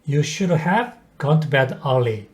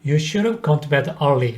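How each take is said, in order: First: Should have is said as two full words. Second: Should have is shortened into should've.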